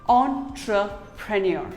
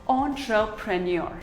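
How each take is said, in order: The two takes are said the same way.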